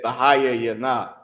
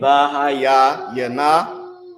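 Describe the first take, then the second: First: It is said quickly, run together smoothly. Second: It is said slowly, broken into parts. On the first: It is how a fluent speaker says it. "I tried to uh, speed up what I was saying" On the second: It is broken down for a beginner. "Instead of saying"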